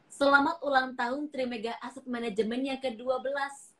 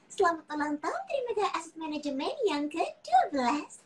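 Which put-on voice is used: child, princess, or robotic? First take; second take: robotic; princess. First: It is said in a flat computer-like voice. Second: It is said in a sweet princess-like voice. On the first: "Versi Google" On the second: "Barbie, ini dia Princess Sophia"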